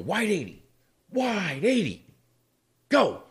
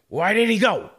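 First: A short pause comes before the final word. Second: The words run together with no pause. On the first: "And it's that little delay" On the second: "he'd roll his go into his second wide 80"

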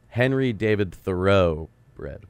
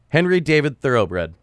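First: The phrase is said slowly and deliberately. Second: The phrase is said at a normal pace.

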